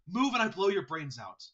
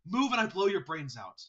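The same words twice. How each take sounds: First: It is said in a breathy voice. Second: It is said in a breathy voice.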